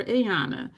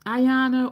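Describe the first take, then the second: First: Ayana starting with an AY sound; Ayana, opening vowel like "day"; second name variant. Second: Ayana starting with an EYE sound; Ayana, opening vowel like "eye"; first name variant. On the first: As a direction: say Ayana as ay-AH-nuh. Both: Retold or imitated. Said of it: "is my name Ayana or Ayana".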